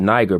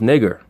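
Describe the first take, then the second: First: The first vowel is long, as in 'nine'. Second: The first vowel is short, as in 'nick'. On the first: This is how the word is said in English. "the vowel is long. So you pronounce it Niger" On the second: This is how the word is said in Latin.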